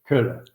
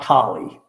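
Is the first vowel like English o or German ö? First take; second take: German ö; English o. First: The first vowel is a rounded front ö sound. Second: The first vowel is a plain English o sound. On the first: The speaker calls it right. "the O there is pronounced more like an umlauted O in German" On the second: The speaker calls it wrong. "it's not Collie. Collie's the dog"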